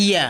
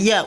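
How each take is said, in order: First: ইয়া begun on a clean "i"; careful corrected ইয়া. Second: ইয়া with an extra "a" in front; quick, mispronounced ইয়া opening on "a"; mistaken Ya. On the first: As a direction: say ইয়া as "iya", with no vowel before it. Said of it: "তাহলে কি হবে". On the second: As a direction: say ইয়া wrongly as "a-iya". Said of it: "অনেক সময় ভুল করে ফেলি". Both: Shown as a demonstration.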